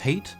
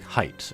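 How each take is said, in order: First: The name rhymes with hate. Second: The name rhymes with height. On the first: "like Haight-Ashbury" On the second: "here it is like Height"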